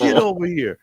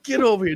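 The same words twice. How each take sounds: First: A laughing call, louder and higher; calling back. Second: Higher, firm summons; firmer call. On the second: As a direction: insist this time, no joke. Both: Retold or imitated. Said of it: "Carl was like".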